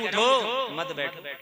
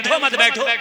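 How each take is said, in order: First: The pause comes after 'utho', meaning stand up. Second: It is said without any pause.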